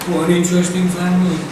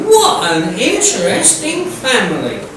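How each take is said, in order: First: It is said flatly with little emphasis. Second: It is said louder with strong emphasis. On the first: It is a plain statement with no excitement. The speaker calls it wrong. "than if it was just sort of" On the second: It is an exclamation showing real interest. The speaker calls it right. "you've got to raise your voice and go"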